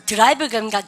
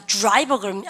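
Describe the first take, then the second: First: "드라이버" with a separate "deu" syllable before the r; Koreanized DR. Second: "드라이버" opening with a fused "joo-r" sound; English DR sound. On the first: ("드라이버"를 글자 그대로 '드'로 발음) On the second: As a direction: say "드라이버" as joo-rai-beo. ("드라이버"의 '드'를 '주'처럼 발음) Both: Shown as a demonstration. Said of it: "D하고 R 발음 있으면".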